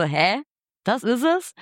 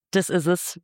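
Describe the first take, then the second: First: Retold baffled question, pitch climbing at the end; puzzled disbelief. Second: Retold as a plain, settled statement; "Das ist es" stated evenly, without a questioning rise; decisive statement. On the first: Singer doubting the producer's verdict on the name, puzzled disbelief. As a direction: echo it back as a higher, rising question. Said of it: "Und ich war so". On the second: Producer settles on the album name, decisive statement.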